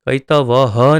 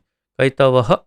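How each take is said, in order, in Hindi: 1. अंतिम ह एक पूरा, पूर्ण अक्षर है। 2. अंतिम ह आधी, हल्की ध्वनि है। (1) "ह पूरा नहीं, कैतवः नहीं" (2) "आधा हकार"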